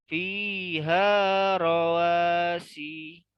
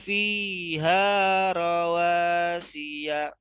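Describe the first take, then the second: First: The phrase stops on 'rawasi' with no ending. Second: The phrase runs on, ending in 'rawasiya'. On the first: The phrase is read as if the verse ends. The speaker calls it wrong. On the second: The phrase is read as continuing into more. The speaker calls it right.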